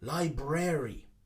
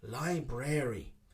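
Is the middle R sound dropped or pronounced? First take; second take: pronounced; pronounced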